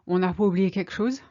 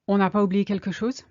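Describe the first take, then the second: First: 'Quelque chose' is shortened, with sounds dropped. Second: 'Quelque chose' is said with all its sounds.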